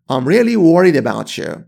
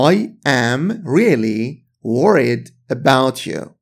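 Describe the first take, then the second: First: "I'm really worried about you" run together, the t of about linking into you; quick casual spoken version; fast connected speech. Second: Slow, "I am really worried about you" with each word apart; slow careful reading. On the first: Teacher shows the fast spoken form to students, words linked together. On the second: Teacher models the full slow form for students, slow and careful. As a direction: lay out every word for learners. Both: Shown as a demonstration.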